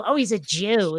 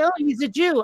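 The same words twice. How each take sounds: First: Sneering. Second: Said in the usual way. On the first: Shown as a demonstration. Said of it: "put a little stank on it".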